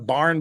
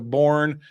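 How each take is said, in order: First: The vowel sounds like the one in 'car'. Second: The vowel sounds like the one in 'core'.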